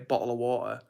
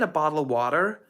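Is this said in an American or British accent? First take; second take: British; American. First: It is said in a British accent. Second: It is said in an American accent. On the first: "they want to hear bottle of water" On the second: "I think of Americans saying that, it's always like"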